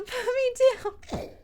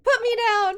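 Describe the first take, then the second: First: Higher, slow, giggling through it; laughing yell. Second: Much higher, louder yell; desperate yell. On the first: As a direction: crack up mid-yell. Repeats line laughing. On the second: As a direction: kick and yell to be freed. Kid grabbed, struggling. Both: Acted.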